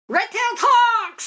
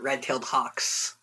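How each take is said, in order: First: It is yelled loudly. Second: It is said at normal volume.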